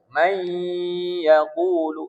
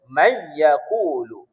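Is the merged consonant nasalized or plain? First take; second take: nasalized; plain. First: The merged sound is said with a nasal hum. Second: The merged sound is said without a nasal hum. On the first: The speaker calls it right. "Harus dengan de dengung" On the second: The speaker calls it wrong. "Tak boleh"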